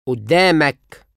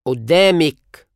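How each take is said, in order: First: قدامك said oddamak, ending in -ak; masculine you form. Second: قدامك said oddamik, ending in -ik; feminine you form. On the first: Teacher drills the masculine form of in front of you. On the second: Teacher drills the feminine form of in front of you. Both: Shown as a demonstration.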